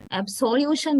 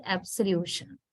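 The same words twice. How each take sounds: First: Absolution with a full O after abs, higher; wrong full vowel. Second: Absolution with a quick schwa after abs, softer; reduced second vowel. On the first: Teacher shows what not to say, absolution with full O. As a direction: say absolution as ab-SOLE-ution, O unreduced. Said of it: "name, right?". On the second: Teacher corrects the example, absolution with schwa. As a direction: say absolution with a weak uh for the O. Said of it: "is reduced to a sound in the". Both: Shown as a demonstration.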